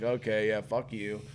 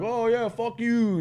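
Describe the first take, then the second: First: Softer, understated comeback; retold brush-off, dropping in volume. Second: High, drawn-out mocking comeback; sing-song dismissive jeer; retold taunt. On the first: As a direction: toss it back quietly, unimpressed. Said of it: "And I'm like". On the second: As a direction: imitate a cocky heckler, slow and higher. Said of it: "And he's like".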